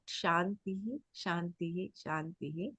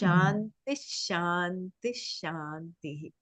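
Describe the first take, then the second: First: Each word ends separately with a full 'hee' sound. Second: The words link, ending in 'sh' until the last. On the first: The speaker calls it wrong. "he says it is not Shantihi" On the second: The speaker calls it right. "is how it has to be correctly"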